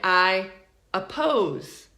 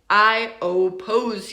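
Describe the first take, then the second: First: The first vowel is a reduced schwa sound. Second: The first vowel is a full 'oh' sound. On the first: The speaker calls it right. "We say, I oppose" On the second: The speaker calls it wrong. "I do not say, I oppose you. No, do not say that"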